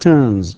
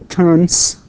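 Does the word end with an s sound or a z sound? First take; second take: z sound; s sound. First: The word ends with a buzzing z sound. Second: The word ends with a hissing s sound. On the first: The speaker calls it right. "إنما نقول turns" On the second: The speaker calls it wrong. "We don't say turns"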